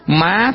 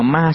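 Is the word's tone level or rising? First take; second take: rising; level. First: The word is said with a high rising tone. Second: The word is said with a level tone. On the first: It means mother. "Nó chỉ hơn nhau có dấu sắc thôi" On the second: It means ghost. "không có dấu sắc"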